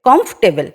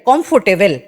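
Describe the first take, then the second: First: It is said without any Bengali accent. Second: It is said with a strong Bengali accent. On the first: The speaker calls it right. "শুদ্ধভাবে বলো বা purely বলো বা influence ছাড়া বলো" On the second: The speaker calls it wrong. "বাঙালিরা কিরকম করে বলবে ... বাংলার মতন করে ইংলিশ বলছে"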